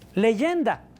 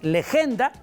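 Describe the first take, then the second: First: The middle consonant is a Y sound. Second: The middle consonant is a hard G sound. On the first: This is how the word was pronounced in Latin. "se pronuncia leyenda en latín" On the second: This is how the word is spelled. "se escribe así"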